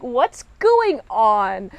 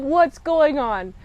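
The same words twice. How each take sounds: First: Very slow, stretched-out bafflement; baffled crew. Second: Mildly drawn-out puzzled question; confused viewer. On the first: Crew questioning their captain's odd move, baffled. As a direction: drag out GOING in mock confusion. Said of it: "Everyone else is like". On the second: Reviewer reacting to the captain's odd move, confused. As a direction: lean on WHAT'S, puzzled. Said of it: "So immediately I'm confused". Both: Retold or imitated.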